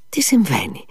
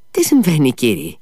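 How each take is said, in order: First: Breathless whispered question; a stunned man whispering; frightened whisper. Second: Alarmed cry. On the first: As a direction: whisper it in shock. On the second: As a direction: blurt it out in alarm. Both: A narrator's reading. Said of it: "πρόφερε ο Μήτια".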